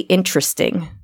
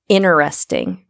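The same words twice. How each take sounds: First: The T sound in the middle is clearly pronounced. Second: The T sound in the middle is left out. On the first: This is the speaker's own way of saying it. "I say interesting" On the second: This imitates the other person's Midwestern way. "Is that how you say it?"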